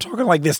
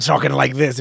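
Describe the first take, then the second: First: The voice is plain and smooth. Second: The voice is rough and gravelly, pirate-like.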